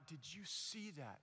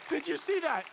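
First: Very soft, lower retold question; acted hush, well under usual volume. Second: High-pitched, eager retold question; acted excitement, pitched well up; excited question. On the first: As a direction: ask it low in quiet awe. First hushed question to the crowd. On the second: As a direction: fire it off high, all worked up. Excited repeat to the next person.

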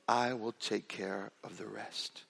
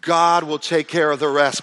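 First: Slow, hushed whisper, much softer. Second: Louder, slow declaration; proclaimed. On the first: Retold or imitated. Churchgoer whispering his offer to pay, slow whisper. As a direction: breathe it like a secret promise. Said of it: "he whispered in my ear". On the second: Real, not acted. Pastor turning the whisper into a loud proclamation. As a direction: ring it out to the congregation. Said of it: "punchline proclaimed after whisper".

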